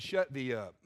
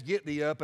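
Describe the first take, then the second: First: "Shut thee up" said low and dry as a rebuke; imagined rebuke. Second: Said in the usual way. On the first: Shown as a demonstration. Preacher hearing God rebuke Joshua, low curt put-down. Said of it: "all I can hear in my head is". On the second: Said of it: "Now, it says".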